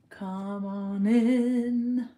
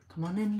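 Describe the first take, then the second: First: Very slow, stretched come on in; slow drawn-out welcome. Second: Said in the usual way. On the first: Shown as a demonstration. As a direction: draw out each word like a host.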